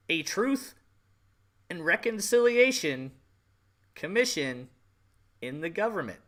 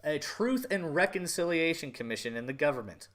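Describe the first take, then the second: First: A Truth ... and Reconciliation ... Commission, each word set apart by long pauses and pushed higher; slow emphatic stress. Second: Said in the usual way. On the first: Shown as a demonstration. Vlogger sarcastically spelling out the Truth and Reconciliation Commission, slow and stressed. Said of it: "pair against a plain read". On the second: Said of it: "plain first take".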